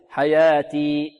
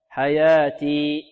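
Both takes have the same delivery.

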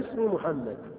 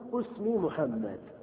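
First: The first word begins with an i vowel. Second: The first word begins with a u vowel. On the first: "الأول الكسر فتقول اسم مثلا اسمي كذا بالكسر" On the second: "وضم، هذا الوجه الثاني"

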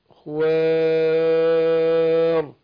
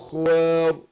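First: The long vowel before the end is held moderately. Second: The long vowel before the end is held briefly. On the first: "توسط" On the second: "قصر"

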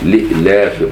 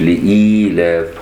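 First: The vowel after the hamza is short, without ya. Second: The vowel after the hamza is lengthened into ya. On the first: "بغير إشباع الكسرة فلا تصبح ياء" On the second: "مش لإيلاف"

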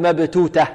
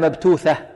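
First: Both middle consonants are hard t sounds. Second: The first is t, the second is th. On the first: "لا نقول مبتوتة" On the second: "ولا مبتوثة"

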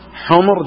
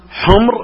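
First: The m is followed by a short u vowel. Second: The m has no vowel after it. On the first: It is the plural of the word for donkey. "وحمر جمع حمار" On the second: It is the plural of the word for red. "حمر جمع أحمر ... فتسكين الميم جمع أحمر"

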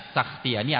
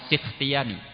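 First: The first syllable has the vowel a. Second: The first syllable has the vowel i. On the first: "dengan memfathah sin" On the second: "dan mengkasrohnya"

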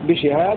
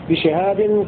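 First: The word ends in a vowel without n. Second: The word ends with an added n sound. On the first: The second word specifies the type of the first. "بدون تنوين" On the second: The second word is a substitute for the first. "بالتنوين"

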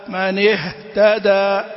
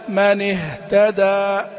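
Both takes have the same delivery.

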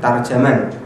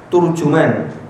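First: Both the first and second syllables have 'a'. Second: Both the first and second syllables have 'u'. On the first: "dibaca tarjaman dengan fa, ta dan jim" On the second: "turjuman dengan dom, ta dan jim"

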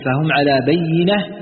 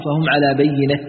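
First: The last word ends in a t sound. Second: The last word ends in an h sound. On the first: "بالتاء" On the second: "بالهاء"

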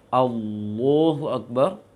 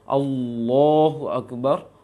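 Both takes have the same delivery.

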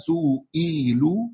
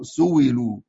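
First: A glottal stop is heard in the middle. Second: A w sound replaces the glottal stop. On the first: "همزة مكسورة وقع بعد ضم" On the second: "يبدلها واو"

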